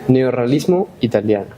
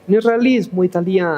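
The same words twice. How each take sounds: First: It is said in a plain Spanish accent. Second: It is said in a put-on Italian accent.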